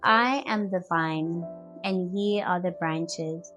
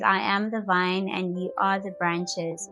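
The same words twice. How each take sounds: First: It is read at a slower pace. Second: It is read at a normal pace.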